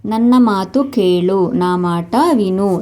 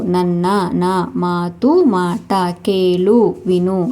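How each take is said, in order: First: Said in the usual way. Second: Slow, each word set apart; teacher's slow drill. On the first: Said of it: "teacher models the phrase". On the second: Shown as a demonstration. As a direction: spell it out slowly for the learner. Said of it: "slow word-by-word repeat".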